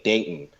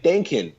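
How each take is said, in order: First: "denken" with the K shut into the n, no vowel; German swallowed K. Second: "denken" higher, American accent, K fully released. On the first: Teacher showing real German, "denken" with the K unreleased. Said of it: "I don't say the K". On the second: Teacher playing an American speaking German, American accent. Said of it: "if I was, um, an American". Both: Shown as a demonstration.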